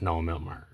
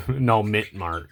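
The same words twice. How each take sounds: First: "mint" misspoken as "milt"; slip of the tongue. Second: "mint" said slowly without the L; corrected pronunciation. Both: Real, not acted. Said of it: "I don't know why I said mint mark".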